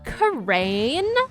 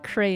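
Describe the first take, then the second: First: The word is drawn out in a Valley girl accent. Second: The word is said plainly in an ordinary accent. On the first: "if I let the Inner Valley girl just poke its ugly head up" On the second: "if I were to say it normally"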